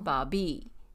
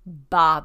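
First: The first syllable carries no strong stress. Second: The first syllable carries strong stress. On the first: The speaker calls it right. "don't put the emphasis on the first syllable" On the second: The speaker calls it wrong. "Like you would in English"

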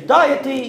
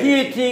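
First: The word uses the pronunciation heard in Australia. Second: The word uses the speaker's own usual pronunciation. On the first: "some have said to me in Australia, they say deity" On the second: "I say deity"

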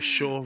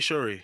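First: The name is cut to a single syllable. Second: The name is said with two full syllables. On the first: The speaker calls it wrong. "It's just completely wrong" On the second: The speaker calls it right. "Even say Shuri"

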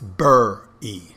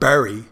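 First: The first vowel sounds like 'burr'. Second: The first vowel sounds like 'berry'. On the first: "it's bur-y, like B-U-R-R-Y" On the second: "it's not bury"

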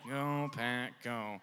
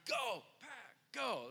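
First: It is said in a lame, flat way. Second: It is said with hyped excitement.

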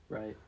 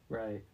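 No difference in how they are said.

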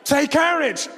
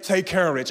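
First: It is said loudly and forcefully. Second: It is said calmly and smoothly.

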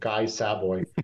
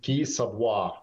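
First: The name is pronounced the American way. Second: The name is pronounced the French way.

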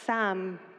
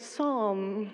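First: The word sounds like the name Sam. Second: The word is said as psalm. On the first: The speaker calls it wrong. "my apparent pronunciation of the word Sam" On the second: The speaker calls it right. "apparently meant to be pronounced Psalm"

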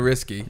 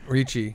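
First: The middle consonants are an s then k. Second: The middle consonant is a ch sound. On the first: This is how the name is really said. The speaker calls it right. "the first C is pronounced like an S. the second one is a K" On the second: This is how most people say the name. The speaker calls it wrong. "we all say Ricci"

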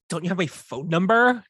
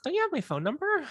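First: It sounds pointed and pressing, not a real question. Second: It sounds innocent, like a genuine curious question. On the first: The speaker is annoyed and implying something obvious. "So if I had sent David a voice memo" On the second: The speaker genuinely wants to know the answer. "it was a real question"

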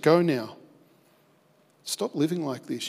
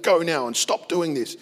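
First: It sounds gentle and restoring. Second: It sounds harsh and threatening.

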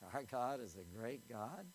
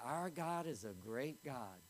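First: It is said with a mocking inflection. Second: It is said plainly and sincerely. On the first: The speaker makes light of God. The speaker calls it wrong. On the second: The speaker truly praises God. The speaker calls it right.

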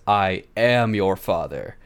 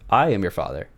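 First: The word "am" carries the strong stress. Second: The word "I" carries the strong stress. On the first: The speaker calls it wrong. "the weird inflection on "am."" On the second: The speaker calls it right. "the inflections on the "I,""

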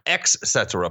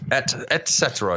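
First: The phrase begins with an 'ex' sound. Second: The phrase begins with an 'et' sound. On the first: The speaker calls it wrong. "not ex cetera" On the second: The speaker calls it right. "Et cetera, not ex cetera"

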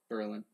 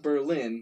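First: It is said the local New Hampshire way. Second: It is said the way the German city is. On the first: It names the town in New Hampshire. The speaker calls it right. "how do you pronounce it?" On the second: It names the city in Germany. The speaker calls it wrong. "Not Berlin, that's Germany"

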